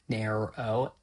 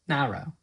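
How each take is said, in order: First: The vowel is coloured by the R, American style. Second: A British accent, without the R-coloured vowel.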